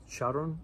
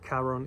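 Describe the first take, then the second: First: The name is said in a non-Greek way. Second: The name is said in a Greek-like way. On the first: Someone else says it this way. The speaker calls it wrong. "I heard it pronounced Charon by somebody" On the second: It is closer to the original. The speaker calls it right. "a little closer to the Greek original pronunciation"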